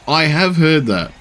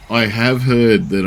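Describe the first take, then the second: First: "have" stressed, higher and slow, falling end. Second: "heard" stressed, slow, falling end. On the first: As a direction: lean on "have", drawn out. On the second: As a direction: lean on "heard" this time. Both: Shown as a demonstration.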